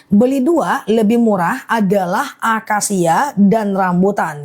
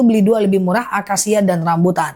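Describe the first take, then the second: First: Measured, separated phrases for clarity; slow careful repeat. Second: Said in the usual way. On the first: Real, not acted. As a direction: lay the offer out piece by piece. (diulang pelan-pelan, kata demi kata) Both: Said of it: "Aku ulang ya".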